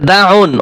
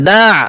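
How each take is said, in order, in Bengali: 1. শব্দটি শেষে n ধ্বনি দিয়ে শেষ হয়। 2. শব্দটি স্বরধ্বনি দিয়ে শেষ হয়, n ছাড়া। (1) "ওয়াকফ করলে তো এভাবে উচ্চারণ হবে না" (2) "দা উচ্চারণ হবে দা"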